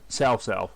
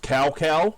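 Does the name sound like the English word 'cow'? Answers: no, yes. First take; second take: no; yes. First: Each syllable does not sound like English cow. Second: Each syllable sounds like the English word cow. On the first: This is how the name is actually said. The speaker calls it right. "actually Sal or Sal Sal" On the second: This is how the English dubs say it. The speaker calls it wrong. "they pronounce like Sal Sal is cow cow for the English dubs"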